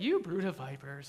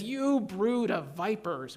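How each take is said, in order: First: It is said in a gentle tone. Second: It is said in an angry tone.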